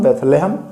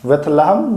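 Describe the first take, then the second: First: बेथलेहम said beth-LAY-ham, long "e" in the middle; long-vowel pronunciation. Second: बेथलहम said beth-la-ham, short "a" in the middle; short-vowel pronunciation. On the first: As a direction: give बेथलेहम a "le" syllable, not "la". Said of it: "कुछ लोग बेथलेहम कहते हैं". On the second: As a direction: give बेथलहम a "la" syllable, not "le". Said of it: "फिलहाल बेथलहम पढ़िए आप". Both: Shown as a demonstration.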